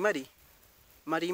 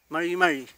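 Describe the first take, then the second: First: The r is a soft Spanish tap. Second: The r is neither a Spanish trill nor tap. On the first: The speaker calls it wrong. "si fuera con una R y yo lo leo sería" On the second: The speaker calls it right. "Esa sería la forma"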